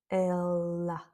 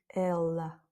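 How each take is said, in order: No difference in how they are said.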